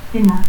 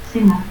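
First: Said in the usual way. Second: Cena as "sena"; seseo. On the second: Shown as a demonstration. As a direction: start Cena with an S.

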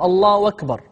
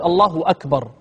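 First: "الله أكبر" run together as "Allahu wakbar"; hamza turned to waw. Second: "أكبر" begun with a clean glottal hamza; hamza kept, no substitution. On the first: Teacher showing a common variant, "أكبر" begun with a waw. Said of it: "يقلب الهمزة واوا". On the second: Teacher giving students the preferred form, "أكبر" with its hamza intact. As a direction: say "الله أكبر" as "Allahu akbar", no w between the words. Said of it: "بلا قلب". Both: Shown as a demonstration.

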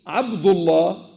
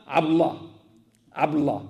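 First: Abdullah slow and full, every d sounded; correct name. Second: Abdullah squeezed to abla, no d; wrong name. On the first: Teacher to congregation: Abdullah said carefully in full. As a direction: lay out each syllable of Abdullah. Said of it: "au lieu de dire". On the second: Teacher imitating the crowd: Abdullah collapsed to abla. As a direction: swallow the middle of Abdullah. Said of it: "Ils enlèvent carrément le D". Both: Shown as a demonstration.

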